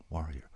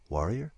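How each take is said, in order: First: "Warrior" low and soft, falling; quiet musing. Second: "Warrior?" with a rising, questioning tune; puzzled question. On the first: Alien trying out an old word, quiet musing on "Warrior". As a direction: turn "Warrior" over softly to yourself. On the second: Alien hears an unknown word, puzzled rise on "Warrior". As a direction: lift the end of "Warrior" as if asking. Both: Acted.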